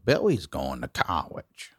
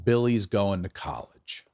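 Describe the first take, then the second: First: It has a Baltimore accent with swallowed Ls. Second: It is said plainly with clear L sounds.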